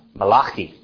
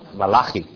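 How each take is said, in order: First: The name is said with the Hebrew pronunciation. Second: The name is said with the Hebrew pronunciation.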